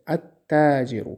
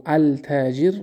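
First: التاجر said at-tajir, lam silent, t doubled; التاجر properly as at-tajir, no lam; correct pronunciation. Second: التاجر said al-tajir with the lam sounded; التاجر wrongly as al-tajir, lam clearly heard; التاجر pronounced al-tajir, the mistake to avoid; wrong pronunciation. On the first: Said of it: "شمسه". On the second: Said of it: "التاجر نمیگیم". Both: Shown as a demonstration.

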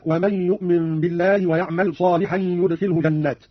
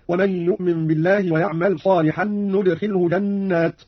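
First: Said in the usual way. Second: ندخله begun with n, "nudkhilhu"; slow recitation with a clear n opening ندخله; nun of majesty. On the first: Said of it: "قرأ قانون بنون العظمة". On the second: Shown as a demonstration. Teacher demonstrating Qalun, ندخله said "nudkhilhu". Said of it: "بنون العظمة هكذا".

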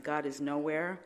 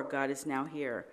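First: "nowhere" said as one word, no break; plain nowhere. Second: "now here" split into two words, slowly. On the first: Showing the church the first reading, "nowhere" as one word. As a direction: run "nowhere" together as noʊwɛɹ. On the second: Showing the church the second reading, "now here" split slowly. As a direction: break "now" from "here", slower. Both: Shown as a demonstration. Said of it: "Slide over the W".

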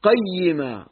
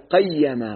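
First: قيما as "qay-yi-ma", fatha on the qaf; doubled ya with kasra. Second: قيما with an open "a" after the doubled ya; mistaken vowel. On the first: Shown as a demonstration. Teacher correcting his own vowel, doubled ya with kasra. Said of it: "تشديد الياء المكسورة". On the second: Real, not acted. Teacher trying the reading he later corrects, mistaken vowel. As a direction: say قيما as "qay-ya-ma". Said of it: "أنا كنت أفتح الياء".

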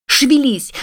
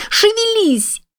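First: High, hard shout. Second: Very high, desperate yell; shouting. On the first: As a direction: hit hard crying out. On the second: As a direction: cry it out even harder. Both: A narrator's reading. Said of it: "кричала на него Кэт".

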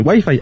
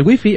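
First: Wifi said the Colombian way, "guaifai"; Latin American wifi. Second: Wifi said the Spain way, "guifi"; Spanish wifi. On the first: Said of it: "Aquí nos conectamos al wifi". (wifi pronunciado a la colombiana, "guaifai") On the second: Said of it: "allá nos conectamos al wifi". (wifi pronunciado a la española, "guifi") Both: Shown as a demonstration.

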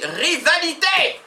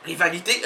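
First: Rivalité stretched slow and higher; drawn-out word. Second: Said in the usual way. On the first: Shown as a demonstration. Host presenting the word of the day, drawn out. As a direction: savour each syllable of rivalité slowly. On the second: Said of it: "plaçons en garde à vue le mot".

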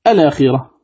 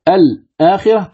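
First: الآخرة run together as "alākhira", no break after "al"; vowel transfer. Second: Said in the usual way. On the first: Shown as a demonstration. Teacher showing the word after transfer, الآخرة joined without hamza. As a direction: glide the lam straight into the long "ā" of الآخرة. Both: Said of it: "تصير الآخرة".

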